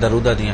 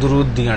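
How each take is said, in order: First: The first syllable has an 'a' vowel. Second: The first syllable has a 'u' vowel. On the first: The speaker calls it wrong. "उसने भी यही पढ़ा दरूदियां" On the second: The speaker calls it right. "जबकि है दुरूदियां डाली हैं"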